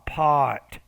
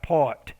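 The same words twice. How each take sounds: First: The vowel is said long. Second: The vowel is said short. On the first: The speaker calls it right. "but it's pa, pot" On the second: The speaker calls it wrong. "You're saying like pot"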